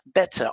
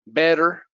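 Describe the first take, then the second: First: The middle T is clear and crisp. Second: The middle T sounds like a soft D. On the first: "the T is very clear in British English" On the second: "with a T or a D"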